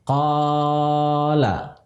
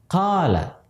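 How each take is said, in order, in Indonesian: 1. Vokal panjangnya dibaca terlalu panjang. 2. Vokal panjangnya dibaca dengan panjang yang sedang. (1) "panjangnya berlebihan" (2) "mesti dia panjangkan"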